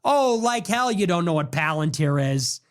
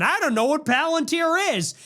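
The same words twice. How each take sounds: First: Plain scornful comeback; scornful retort. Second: Higher, wide-eyed fake ignorance; lightly voiced Tucker pretending not to know; mock Tucker. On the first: Real, not acted. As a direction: own voice, scoffing disbelief. Scoffing back at the quote. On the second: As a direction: mimic a pundit playing dumb. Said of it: "Tucker goes on Theo Von".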